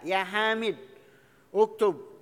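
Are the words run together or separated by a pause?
pause. A pause separates the name from the verb.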